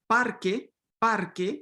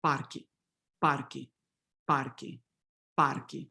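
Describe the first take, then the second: First: Parque with a full clear final e; Spanish parque, crisp final e. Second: Parque with final e raised toward i, parqui; Portuguese parque, final vowel reduced. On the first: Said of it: "in standard Spanish". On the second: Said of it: "in Portuguese". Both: Shown as a demonstration.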